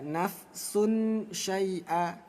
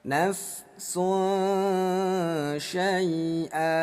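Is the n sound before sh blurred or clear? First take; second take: clear; blurred. First: The n sound is pronounced clearly and fully. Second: The n sound is blurred into a nasal hum. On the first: The speaker calls it wrong. "Jadi nggak dibaca" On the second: The speaker calls it right. "Nafsun disamarkan"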